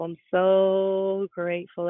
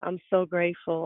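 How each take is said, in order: First: Slowly, dwelling on each word; slow and heartfelt. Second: Said in the usual way. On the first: Shown as a demonstration. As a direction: stretch it out, meaning every word.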